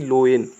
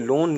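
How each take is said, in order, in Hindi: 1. स्वर को o, फिर e में बाँटा जाता है। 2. स्वर एक लंबी o ध्वनि है। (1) "ना कि लोएन" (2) "इसलिए हम इसको पढ़ेंगे लोन"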